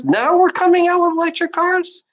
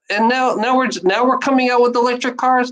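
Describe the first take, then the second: First: Very high-pitched, incredulous repeat; incredulous outburst. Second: Higher-pitched complaint; exasperated disbelief. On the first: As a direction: push the pitch way up in outraged disbelief. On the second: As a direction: grumble in disbelief, pitch raised. First take of incredulous complaint. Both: Real, not acted.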